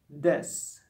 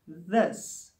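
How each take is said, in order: First: The word starts with a hard d sound. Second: The word starts with a soft th sound. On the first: The speaker calls it wrong. "German may pronounce it as this" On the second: The speaker calls it right. "For instance, this, this"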